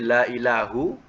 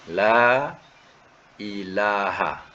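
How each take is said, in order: First: The last word ends in a 'u' vowel. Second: The last word ends in an 'a' vowel. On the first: Other gods are still believed in. The speaker calls it wrong. "la ilahu baris depan" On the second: No other god exists at all. The speaker calls it right. "Ha tu baris atas"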